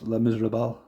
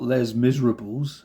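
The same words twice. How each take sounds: First: The title is said with French-style sounds. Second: The title is read with English spelling sounds. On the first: "it's pronounced Les Miserables" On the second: "it's spelt Les Miserables to me"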